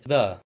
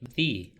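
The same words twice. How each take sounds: First: The word ends in a short 'uh' vowel. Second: The word ends in a long 'ee' vowel. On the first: It comes before a noun starting with a consonant. "when the following noun begins with a consonant, we pronounce it like the" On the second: It comes before a noun starting with a vowel. "when the following noun begins with a vowel, we pronounce it like the"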